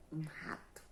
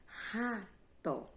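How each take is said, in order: First: Said in the usual way. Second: "rato" slowly as ra... to; teacher breaking "rato" into ra and to; split into syllables. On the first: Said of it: "formada também por duas sílabas". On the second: Shown as a demonstration. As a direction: say "rato" in two drawn-out, separate beats. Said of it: "ela é formada também por duas sílabas".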